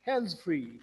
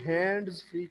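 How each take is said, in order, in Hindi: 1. 'hands' में d की आवाज़ छोड़ दी जाती है। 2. 'hands' में d की आवाज़ बोली जाती है। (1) "ये वाले लेटर्स अंदर से ड्रॉप कर सकते हैं" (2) "हैंड्स फ्री कहने की बजाय"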